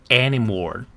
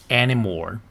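No difference in how they are said.

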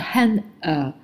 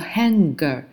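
First: The ng sound is directly followed by the vowel. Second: The ng sound is not directly followed by the vowel. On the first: The speaker calls it right. "它是这个后面直接加的短元音的音" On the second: The speaker calls it wrong. "不是读的hanger"

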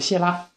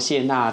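First: The second syllable starts with a lateral l sound. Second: The second syllable starts with a nasal n sound. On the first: The speaker calls it wrong. "他发的是这个边音" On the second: The speaker calls it right. "娜应该是鼻音"

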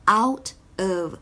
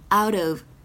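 First: The two words are said separately. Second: The two words are linked into one.

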